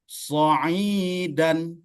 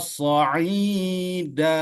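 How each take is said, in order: First: The word ends on a short vowel plus n. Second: The word ends on a long vowel, without n. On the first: The reader continues without stopping. "kalau dia tidak diwakafkan ... nggak boleh dibaca panjang itu kan" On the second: The reader stops at this word. "kalau dibaca dia so diwakaf lah Ibu ya. Jadi dibaca so'ida"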